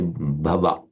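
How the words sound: It is pronounced with a French accent. "the native French speaker might just want to say"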